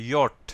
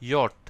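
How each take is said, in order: No difference in how they are said.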